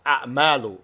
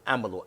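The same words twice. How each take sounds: First: A'malu with a catch after the first a, long second a; plural form. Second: Amalu with short, even vowels and no catch; singular form. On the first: Teacher explaining why the Prophet said it, plural pronunciation. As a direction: say a'malu as "a'-MAA-lu". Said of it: "this is why the Prophet said". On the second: Teacher contrasting it with the plural, singular pronunciation. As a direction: say amalu as "A-ma-lu", first syllable leading. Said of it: "Amalu is singular". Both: Shown as a demonstration.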